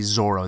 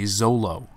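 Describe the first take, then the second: First: The middle consonant is an R sound. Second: The middle consonant is an L sound. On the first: This is the original form of the name. "they would never say Zorro" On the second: This is how Japanese speakers say the name. "They would say Zolo"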